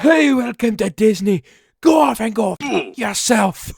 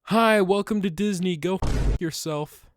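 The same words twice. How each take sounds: First: Put-on loud, high Scottish accent yell; over-the-top Scottish accent shouted at passing tourists. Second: Higher, mock Scottish greeting; cheery fake Scottish welcome with a sting; Scottish accent. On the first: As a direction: bellow it in a hammed-up Scottish accent. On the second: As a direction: loose Scottish accent, yelled in jest. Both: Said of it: "I yelled it out loud in a Scottish accent".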